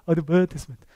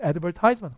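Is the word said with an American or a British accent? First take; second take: British; American. First: It is said with a British accent. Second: It is said with an American accent. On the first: "광고가 영국 가면 뭐라고요?" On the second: "여러분이 아시는 발음은 advertisement잖아요"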